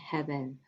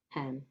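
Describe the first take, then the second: First: The word is said in full with two syllables. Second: The middle is dropped, leaving one syllable.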